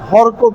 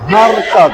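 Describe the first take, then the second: First: The first syllable sounds like short 'hor'. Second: The first syllable sounds like open 'haa'. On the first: The speaker calls it wrong. "হরকত না" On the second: The speaker calls it right.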